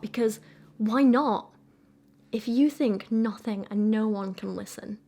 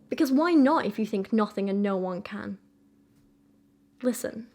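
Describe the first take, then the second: First: A break falls right after 'why not'. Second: A break falls right after 'no one can'. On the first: Listen belongs to the phrase about no one listening. "Is she trying to write this as" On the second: Listen starts a new phrase addressed to the reader. "Or is it more like"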